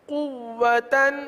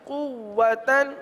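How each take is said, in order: The two takes are said the same way.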